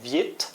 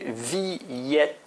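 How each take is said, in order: First: The i and e merge into one quick syllable. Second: The i and e sound almost like two syllables. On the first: The speaker calls it wrong. "au lieu de prononcer viet" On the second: The speaker calls it right. "on va vraiment prononcer presque comme deux syllabes"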